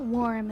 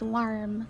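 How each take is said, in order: First: The R sound is weak and barely heard. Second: The R sound is strong and drawn out. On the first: The speaker calls it wrong. "it's not warm" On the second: The speaker calls it right. "they like, really like their R's"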